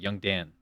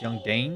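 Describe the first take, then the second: First: The name has a short 'a' vowel, like 'Dan'. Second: The name has an 'ay' vowel, like 'Dane'. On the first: The speaker calls it right. "It's pronounced Dan" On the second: The speaker calls it wrong. "It's Young Dane"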